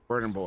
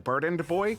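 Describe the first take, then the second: First: The first word ends without a D sound. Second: The first word ends with a clear D sound. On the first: "I don't think I en- enunciate the second D" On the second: "If I had to enunciate the second D"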